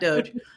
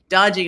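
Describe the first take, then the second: First: It is said with one syllable. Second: It is said with two syllables, like 'dodgy'. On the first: The speaker calls it wrong. "not Doge" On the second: The speaker calls it right. "we should pronounce it Dodgy"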